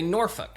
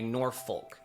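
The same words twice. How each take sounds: First: The second part sounds like a swear word. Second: Every letter is pronounced as written. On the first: Old-school locals say it this way. "kind of sounds like profanity" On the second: Newcomers to the area say it this way. "That's kind of how it spells, but that's incorrect"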